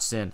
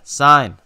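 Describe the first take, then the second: First: It is said with a short 'i' vowel. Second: It is said with a long 'eye' vowel. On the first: The speaker calls it wrong. "not sin" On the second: The speaker calls it right.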